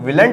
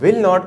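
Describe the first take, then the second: First: It is contracted to one word, willn't. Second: It is said as two separate full words. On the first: "विलंट नहीं कहते" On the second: "विल नॉट को"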